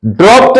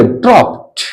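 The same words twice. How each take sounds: First: ड्रॉप्ड ending in a voiced "de"; the mistaken D ending on ड्रॉप्ड; wrong final D. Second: ड्रॉप्ड as "dropt", released T at the end; final -ed as T. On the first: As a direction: say ड्रॉप्ड as "drop-de". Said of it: "नहीं बोलेंगे". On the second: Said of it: "ड्रॉप्ड नहीं बोलेंगे". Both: Shown as a demonstration.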